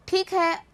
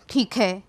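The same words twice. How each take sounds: First: ठीक है pitched high and a little louder; high-toned ठीक है. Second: ठीक है dropped low, loud and firm; low-toned ठीक है. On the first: Teacher showing how tone changes a word, ठीक है said high. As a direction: say ठीक है up in a higher tone. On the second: Teacher showing how tone changes a word, ठीक है said low and loud. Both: Shown as a demonstration. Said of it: "इस शब्द को कैसे बोल रहे हैं".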